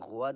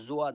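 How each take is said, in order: First: It starts with a g sound. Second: It starts with a j sound. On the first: "ये तीनों आवाज़ें गलत हैं" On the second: "ये तीनों आवाज़ें गलत हैं"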